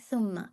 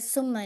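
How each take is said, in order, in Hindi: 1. इसकी शुरुआत एक नरम, साँस वाली th आवाज़ से होती है। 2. इसकी शुरुआत एक सिसकती, सीटी जैसी s आवाज़ से होती है। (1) "हम्स होगा बट नॉट व्हिस्लिंग साउंड" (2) "सा को जो सी नहीं पढ़िए, सुम्मा नहीं है"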